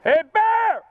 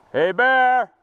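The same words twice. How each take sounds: First: High loud yell at a bear; scaring off a bear. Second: Loud yell at a bear; scaring off a bear. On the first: Bear on trail, yelling. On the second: Yelling at bear. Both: Real, not acted. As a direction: shout to chase the bear off.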